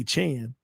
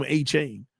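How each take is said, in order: First: Chan with a short, open vowel as in "man"; "Chan" pronunciation. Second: Achane with the ending like "chain"; "chain" pronunciation. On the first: Commentator blames the corrected name, Chan with short vowel. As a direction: say Chan, not chain. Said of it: "When I say Chan". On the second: Commentator tests the lucky name, Achane ending in "chain". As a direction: say Achane to rhyme with "rain". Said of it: "he runs well when I say chain". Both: Shown as a demonstration.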